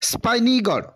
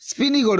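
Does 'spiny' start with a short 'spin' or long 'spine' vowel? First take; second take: long; short. First: The first vowel is long, as in 'spine'. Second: The first vowel is short, as in 'spin'. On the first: The speaker calls it right. "ତାର actual ପ୍ରୋନାଉନ୍ସିଏସନ" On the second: The speaker calls it wrong. "Actually ସେଇଟା ରଙ୍ଗ ପ୍ରୋନାଉନ୍ସିଏସନ"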